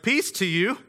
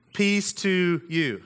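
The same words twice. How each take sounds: First: Light and casual, lifting at the end like a hello; an easygoing greeting with an upturn; casual Jesus greeting. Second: Unhurried, reverent reading of the greeting; a slow quoted blessing; slow solemn scripture reading. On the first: Retold or imitated. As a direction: toss it off as a friendly hi to the guys. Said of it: "he's like". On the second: Acted. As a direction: read it slowly, letting each word land. Reading Jesus' words from scripture.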